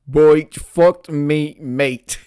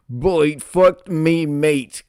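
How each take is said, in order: First: Slow, reluctant mock Australian; reluctant operator. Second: Raised-voice operator with mock Australian twang; half-hearted yell, pitched higher. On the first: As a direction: drag it out as an unwilling operator. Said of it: "she said again reluctantly". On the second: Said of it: "so she's yelling".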